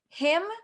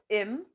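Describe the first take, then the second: First: The word starts with a clear h sound. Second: The word starts without any h sound.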